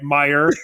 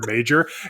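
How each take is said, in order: First: The middle consonant is a 'y' sound. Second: The middle consonant is a 'j' sound. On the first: The speaker calls it right. "All right, Meyer" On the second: The speaker calls it wrong. "I mispronounced Meyer grocery store"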